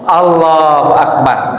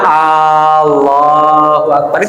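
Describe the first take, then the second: First: The first vowel of Allah is kept short. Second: The first vowel of Allah is drawn out long. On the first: It states that God is great. The speaker calls it right. "Pendek Allah, Allah, lafaz Allahnya panjang" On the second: It asks whether God is great. The speaker calls it wrong. "jangan ... kalau A-nya panjang"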